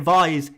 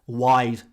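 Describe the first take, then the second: First: The name begins with a V sound. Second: The name begins with a W sound. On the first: The speaker calls it wrong. "Don't say Vise" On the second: The speaker calls it right. "It's pronounced Wise"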